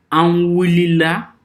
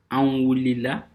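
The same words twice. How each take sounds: First: "Anwulila" said slow, high and loud; teacher modelling "Anwulila" slowly; clear model word. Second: Said in the usual way. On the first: Shown as a demonstration. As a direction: spell out "Anwulila" for the class. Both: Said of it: "les exemples que vous voyez devant vous".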